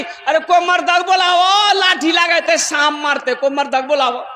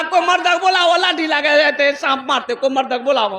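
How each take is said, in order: First: Raised panicky call for a man; women shouting for help. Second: High, put-on panicky voice; the young man mimics the women's cry; mock womanly cry. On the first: Retold or imitated. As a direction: shout for a man to kill the snake. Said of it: "चिल्लाने लगी". (औरतें चिल्लाकर मर्द बुलाती हुई) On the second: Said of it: "ये भी बोल रहा". (ज़नाना आवाज़ में नकल करता हुआ)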